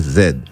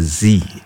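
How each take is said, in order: First: The letter is said the British way, zed. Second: The letter is said the American way, zee.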